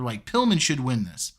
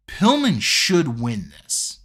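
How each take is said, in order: First: Said in the usual way. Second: Slow and deliberate, weight on "Pillman"; emphatic claim. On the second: Real, not acted. Arguing Pillman should win the match, slow emphatic stress on "Pillman". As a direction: draw out "Pillman" slowly to press the point.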